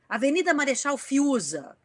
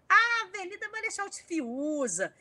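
First: It is read in a plain, neutral way. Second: It is read in a creative, funny way.

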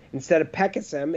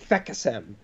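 First: The name begins with a plain P sound. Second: The name begins with an F sound. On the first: The speaker calls it right. "it's just puh" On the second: The speaker calls it wrong. "people say it wrong"

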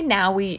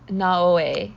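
First: The name is pronounced in an English way. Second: The name is pronounced in a Japanese way. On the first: "They say Naoe in English" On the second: "but it's like Naoe"

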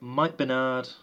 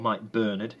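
First: The name is pronounced the non-British way. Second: The name is pronounced the British way.

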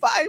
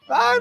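First: It is said softly, without forcing the voice. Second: It is shouted loudly with a forced voice.

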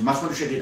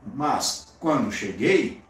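First: It is said without a pause after mas. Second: There is a pause after mas.

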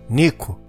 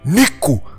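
First: The name is said softly and weakly. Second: The name is said loudly and forcefully.

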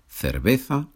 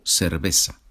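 First: The word is said in a non-Latin American accent. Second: The word is said in a Latin American accent.

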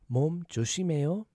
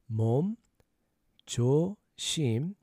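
First: It is said faster. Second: It is said slowly.

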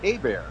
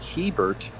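First: The H is silent and the E sounds like A. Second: The H is sounded and the E is not A. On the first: The speaker calls it right. "the H is silent and the E is pronounced like an A" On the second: The speaker calls it wrong. "I know it looks like Hebert"

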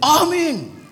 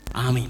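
First: It is said louder and more forcefully. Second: It is said at normal, softer volume.

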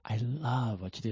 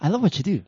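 First: It is said slowly, with much feeling. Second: It is said quickly, without extra feeling.

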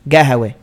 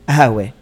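First: It is said with a g, Bedouin style. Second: It is said without the k, city style.

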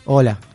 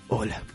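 First: The greeting sounds confident and sure. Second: The greeting sounds timid and unsure.

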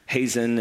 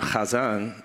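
First: The name is pronounced the English way. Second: The name is pronounced the Hebrew way. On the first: "what my name means" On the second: "like they would say it that way in Hebrew"

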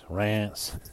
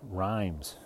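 First: It is said with a French pronunciation. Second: It sounds like the English word 'rhymes'. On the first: The speaker calls it right. "but it's Reims, because that's just the way the French do it" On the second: The speaker calls it wrong. "which I would think would be like rhymes"

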